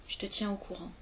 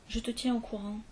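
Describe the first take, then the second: Both takes have the same delivery.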